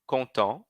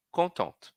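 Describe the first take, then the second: First: "Content" ending nasal, no T; silent T. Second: "contente" with the T spoken, pitched up; final T sounded. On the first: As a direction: drop the T of "Content". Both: Shown as a demonstration. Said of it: "Repitam comigo".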